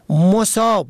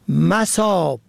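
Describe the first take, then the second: First: The first vowel is u. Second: The first vowel is a. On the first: Afflicted by misfortune. "به ضم اول" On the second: Places or locations. "به فتح اول"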